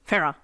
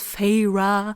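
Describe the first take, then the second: First: The name is said quickly with syllables mushed. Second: The name is drawn out with flowing syllables. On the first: "say her name a little bit faster ... it just mushes together" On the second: "so long and flowy"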